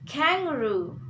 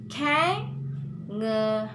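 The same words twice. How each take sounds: First: "kangaroo" as one word, KANG raised then falling; stressed syllable demo. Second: "kangaroo" slowly split into KANG, nga, roo; syllable-by-syllable demo. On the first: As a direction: model "kangaroo" joined up, leaning on KANG. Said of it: "first syllable we have to stress". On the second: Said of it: "like that". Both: Shown as a demonstration.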